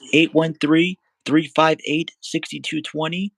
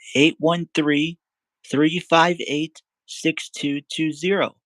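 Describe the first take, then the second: First: The number is read at a quicker pace. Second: The number is read at a slower pace.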